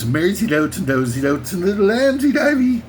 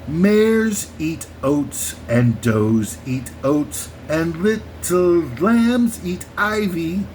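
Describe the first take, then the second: First: The words run together into nonsense-sounding syllables. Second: Each word is said slowly and separately. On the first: "this ramshackle bunch of weird enunciated syllables that don't seem to make any sense" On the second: "Let me slow it down to for you"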